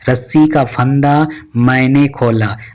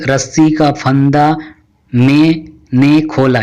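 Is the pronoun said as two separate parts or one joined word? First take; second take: joined; separate. First: The pronoun is run together as one word, maine. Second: The pronoun is split into two parts, mein ne. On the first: The speaker calls it right. "सुनने में अच्छा महसूस हो रहा है" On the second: The speaker calls it wrong. "एक भद्दा सा महसूस हो रहा है"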